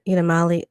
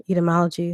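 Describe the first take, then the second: First: "etymology" fumbled as "eetamolly", losing the "-jee" ending; slip of tongue. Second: Said in the usual way. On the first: Real, not acted. Streamer stumbling over "etymology" for viewers, mispronounced as "eetamolly". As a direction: drop a syllable from "etymology", saying "eetamolly". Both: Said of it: "excuse me".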